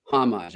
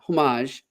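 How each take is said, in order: First: "Homage" said as HAH-mahzh; corrected pronunciation. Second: "Homage" said as oh-MAHZH; "Homage" mispronounced with oh for the first vowel; wrong pronunciation. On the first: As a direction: say "Homage" with "ah" in the first syllable, not "oh". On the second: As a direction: say "Homage" with a rounded "oh" in the first syllable. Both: Shown as a demonstration. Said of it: "I've been pronouncing it wrong".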